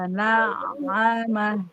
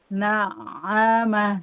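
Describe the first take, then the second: First: The ain sound flows slightly, half held, half flowing. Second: The same.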